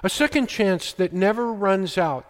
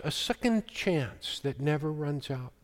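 First: Said in the usual way. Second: "A second chance that never runs out" repeated much softer, falling away; a quiet, reflective echo of the line. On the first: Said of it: "repeated right after". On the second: Shown as a demonstration. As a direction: let the repeat sink to a hush. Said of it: "said again softer".

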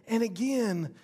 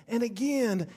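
The two takes are said the same way.

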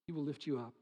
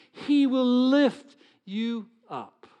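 First: Quiet, low repeat; soft echo. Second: Louder, higher, slow; loud proclamation. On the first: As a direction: let it fall softly. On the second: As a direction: proclaim it high and full. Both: Shown as a demonstration.

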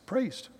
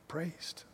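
First: Said in the usual way. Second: Whispered, much softer. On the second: Shown as a demonstration. Preacher savouring the word Praised for the church, whispered. Repeating key word softly.

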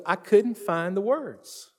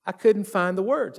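First: Slow, halting retelling of his words; slowed, helpless quote. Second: Said in the usual way. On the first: Retold or imitated. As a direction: let each word drag out, lost for words. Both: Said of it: "the only words he had was".

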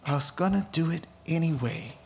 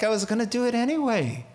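First: The Lord, gentle echo. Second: Fast, higher, brushing it off; quick light divine shrug; the Lord, breezy. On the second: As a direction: say it like God shrugging. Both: Retold or imitated. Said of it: "The Lord is like".

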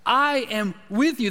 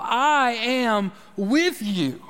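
First: Said in the usual way. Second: Very slow, each word placed on "I am with you"; slow, weighty. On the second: Shown as a demonstration. Preacher slowly repeating God's promise to his listeners. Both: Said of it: "telling them again and again".

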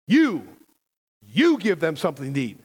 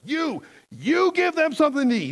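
First: Loud, stressed opening YOU in "You, you give them"; emphatic command. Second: High, forceful stress on both "You, you"; very emphatic command. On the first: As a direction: punch the first "You", then ease through the command. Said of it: "the command is very emphatic". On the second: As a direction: drive home "You, you" with soaring pitch. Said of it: "He's being very emphatic". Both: Acted.

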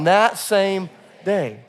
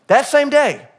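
First: "That same day" slowly, every word pressed; slow emphasis. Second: "That same day" high and loud, SAME hit hard; stress on SAME. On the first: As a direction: lead the room through "That same day" slowly. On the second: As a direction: preach "That same day" with SAME punched. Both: Shown as a demonstration. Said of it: "Come on".

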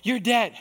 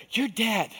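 First: High, loud you're dead; Satan's second verdict; louder accusation. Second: Satan's verdict; accusing. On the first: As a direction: hammer it home. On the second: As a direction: spit it at him. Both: Retold or imitated. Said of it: "voice of accusation".

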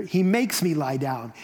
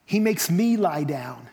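First: "makes" leaned on firmly; firm reading that punches "makes"; stress on "makes". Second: "me" leaned on and held, slow line; slow reading with weight on "me"; stress on "me". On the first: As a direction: put the weight on "makes", not "me". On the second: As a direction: make "me" the personal point of the verse. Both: Shown as a demonstration. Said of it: "you could read it this way".

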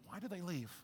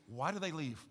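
First: "Why do they leave?" hushed, weight on DO; near-quiet repeat stressing do; stress on do, much softer. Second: "Why do they leave?" with THEY leaned on, a touch lower; stress on they. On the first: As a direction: drop the volume right down and lean on do. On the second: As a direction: ask it, pressing on the word they. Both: Shown as a demonstration. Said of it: "why do prodigals leave?".

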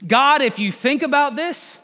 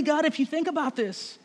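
First: Higher, louder pleading appeal to God; Adam arguing loudly. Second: Adam wheedling. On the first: Adam pleading with God, loud and high. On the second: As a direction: coax God sweetly to see it your way. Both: Acted. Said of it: "The man replied".

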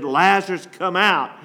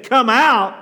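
First: Said in the usual way. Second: A louder, higher call to come out; a booming call to every dead soul; loud command. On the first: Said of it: "he said in a loud voice". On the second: Retold or imitated. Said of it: "If he would have said".

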